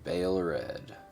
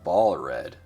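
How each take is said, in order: First: The first word has the vowel of 'day'. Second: The first word has the vowel of 'ball'. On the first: The speaker calls it wrong. "Pronounced as Bale. I don't like that" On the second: The speaker calls it right. "We're going to stick with ball"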